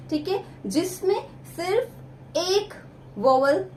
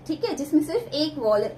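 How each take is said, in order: First: Slowed, stretching out सिर्फ एक vowel; slow emphasis. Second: Said in the usual way. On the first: Shown as a demonstration. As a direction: lean on एक and hold vowel, teacher-style.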